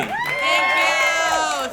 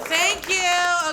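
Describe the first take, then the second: First: Bright, high, loud thanks to the crowd; excited thank you. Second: Said in the usual way. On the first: Real, not acted. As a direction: greet the cheering crowd with a burst of energy. Cheering crowd greets her.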